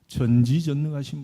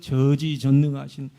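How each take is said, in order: First: The n sound in the first syllable is pronounced. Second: The n sound in the first syllable is dropped. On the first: The speaker calls it right. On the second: The speaker calls it wrong.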